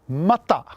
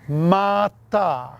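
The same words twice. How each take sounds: First: Both vowels are short. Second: Both vowels are long. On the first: It means raw. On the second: It means heap.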